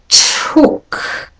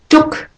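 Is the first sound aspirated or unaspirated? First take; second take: aspirated; unaspirated. First: The t is released with a puff of air. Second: The t is released without a puff of air.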